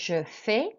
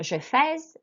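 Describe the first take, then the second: First: Fais ends on a vowel, consonant silent. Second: The final consonant of fais is sounded. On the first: The speaker calls it right. "we don't pronounce consonants at the end" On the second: The speaker calls it wrong. "it's not je fais"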